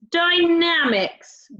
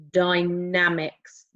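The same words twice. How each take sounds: First: Dynamics drawn out slowly and higher. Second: Dynamics drawn out slowly, low. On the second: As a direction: stretch out dynamics. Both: Shown as a demonstration. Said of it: "Can you say dynamics?".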